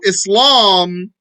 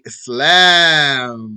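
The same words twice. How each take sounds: First: The long a vowel sounds heavy and dark. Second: The long a vowel sounds light and open. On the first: The speaker calls it wrong. "Don't say like some people" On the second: The speaker calls it right. "That's a light. That has tarqiq"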